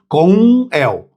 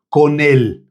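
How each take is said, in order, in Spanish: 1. Las dos palabras se pronuncian por separado, terminando en m. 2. Las dos palabras se pronuncian unidas en una sola. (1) "Se a gente fosse ler isso daqui, a gente iria ler com el" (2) "isso aqui dá para emendar com ele"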